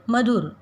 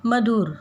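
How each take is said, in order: First: "मधुर" में छोटा, हल्का उ; "मधुर" को सही छोटे उ से बोलें; correct short u. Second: "मधुर" का उ गलत ढंग से खींचकर; "मधुर" को लंबे उ के साथ गलत बोलें; wrong drawn-out u. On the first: (सही छोटा उ) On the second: (गलत, खिंचा हुआ उ) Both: Shown as a demonstration. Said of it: "हम इसे मधुर नहीं कहते".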